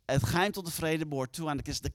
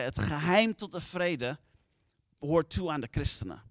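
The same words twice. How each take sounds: First: Said in the usual way. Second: Slow and weighty, each word set apart; grave, deliberate quoting of the secret; slow solemn quote. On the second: Retold or imitated. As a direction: lay the saying down slowly, with a pause before behoort. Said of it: "Hij zei".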